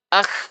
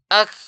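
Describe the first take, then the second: Both takes have the same delivery.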